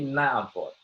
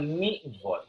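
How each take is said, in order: First: The first vowel is an 'a' sound. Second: The first vowel is an 'i' sound. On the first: The speaker calls it right. "tapi na vote" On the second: The speaker calls it wrong. "bukan ni vote"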